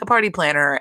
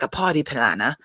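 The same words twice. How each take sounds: First: Said in the usual way. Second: Party planner with dropped r's, put-on accent; mock accent, softened r's on party planner; Dorit's accent. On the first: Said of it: "she's talking about how". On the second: Podcaster mimicking a housewife's party boast, put-on accent. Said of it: "Dorit is talking about how".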